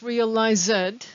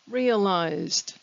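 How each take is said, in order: First: The ending is not a light t sound. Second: The ending is a light t sound. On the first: The speaker calls it wrong. "We don't pronounce realized" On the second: The speaker calls it right. "We pronounce it like a little t"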